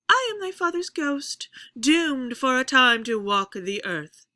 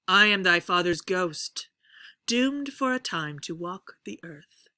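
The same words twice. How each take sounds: First: The pitch starts high and falls across the line. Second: The pitch starts low and rises across the line. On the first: "I could do the opposite" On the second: "I'm going to start uh, low and I'm going to raise the pitch as we go"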